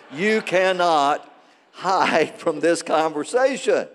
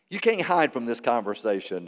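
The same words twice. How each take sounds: First: Slow, weighty stress on "cannot"; emphatic warning. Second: Said in the usual way. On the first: Real, not acted. Pastor warns congregation after calling to close doors, emphatic. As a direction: draw out "cannot" and "hide" for emphasis.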